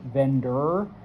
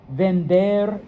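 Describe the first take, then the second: First: It is said with an English pronunciation. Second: It is said with a Spanish pronunciation.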